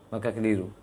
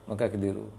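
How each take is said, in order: Both takes have the same delivery.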